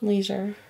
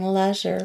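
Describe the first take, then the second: First: Leisure is said with an American pronunciation. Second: Leisure is said with a British pronunciation. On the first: This is how the speaker normally says it. "How do you pronounce it?" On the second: This is how the other speaker's country says it. "But I'm going to start saying leisure"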